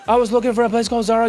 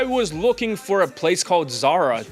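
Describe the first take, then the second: First: It is spoken very fast and rushed. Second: It is spoken at a calm, unhurried pace. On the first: The speaker calls it wrong. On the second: The speaker calls it right.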